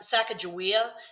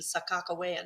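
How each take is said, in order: First: The name is said with a G sound. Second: The name is said with a K sound. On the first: This is the widespread common pronunciation. "A lot of people say" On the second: This is the pronunciation the native peoples prefer. "the native peoples tend to prefer the pronunciation Sakakawea now, with K's"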